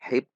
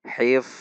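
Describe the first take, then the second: First: The word ends in a stopped p sound. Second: The word ends in an unstopped f sound. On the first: The speaker calls it wrong. "tidak dibaca hip" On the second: The speaker calls it right. "namun dibaca hif, tidak tertahan"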